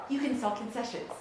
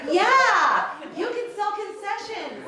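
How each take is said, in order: First: Said in the usual way. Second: Drawn out, high and loud; slow high insistence. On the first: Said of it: "I was like". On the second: Retold or imitated. [name] repeating the job offer to Hal, high and slow. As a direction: push it like it's the obvious answer. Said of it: "And I said".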